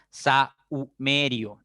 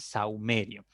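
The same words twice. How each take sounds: First: "saumerio" broken as sa, u, merio; wrongly separated vowels. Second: "saumerio" said smoothly, AU glided as one syllable; vowels in one syllable. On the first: Teacher warns students not to separate the vowels, broken-up syllables. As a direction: split A from U in "saumerio" with gaps. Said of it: "No debo separar". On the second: Teacher shows students the correct diphthong, vowels glided together. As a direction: join A and U in "saumerio", softer. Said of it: "Deben aparecer en una sola sílaba". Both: Shown as a demonstration.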